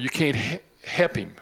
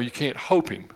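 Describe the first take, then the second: First: Help is said with a clear L sound. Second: Help is said like the word hope.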